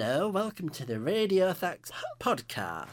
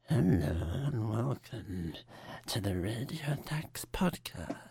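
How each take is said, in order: First: It is said in a normal voice. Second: It is said in a seductive voice.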